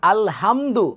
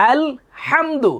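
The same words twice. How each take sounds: First: "আলহামদু" with a plain light h; no throat friction in "আলহামদু"; wrong pronunciation. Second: "আলহামদু" slow and high, with a thick throat h; correct pronunciation. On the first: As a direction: demonstrate a mistaken "আলহামদু" with ordinary h. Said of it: "তাহলে অর্থ হয়ে যাবে সমস্ত নিন্দা". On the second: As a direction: breathe hard through the h of "আলহামদু". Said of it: "উচ্চারণটা কি হবে?". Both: Shown as a demonstration.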